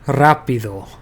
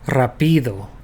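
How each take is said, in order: First: The stress is on the first syllable. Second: The stress is on the second syllable. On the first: The speaker calls it right. "Here the emphasis is on this A" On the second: The speaker calls it wrong. "if I emphasize the I"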